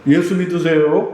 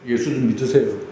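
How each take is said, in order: First: It is said in a sweet, friendly voice. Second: It is said pleadingly, like someone begging.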